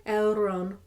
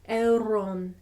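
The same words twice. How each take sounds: No difference in how they are said.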